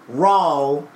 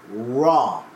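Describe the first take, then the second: First: The word ends with an added L sound. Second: The word ends in a plain vowel, no L. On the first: The speaker calls it wrong. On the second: The speaker calls it right. "Like R-A-W"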